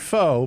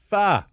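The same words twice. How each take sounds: First: Pho is said without the Vietnamese pronunciation. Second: Pho is said with the Vietnamese pronunciation. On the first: The speaker calls it wrong. "Not pho" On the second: The speaker calls it right. "Proper Vietnamese pronunciation"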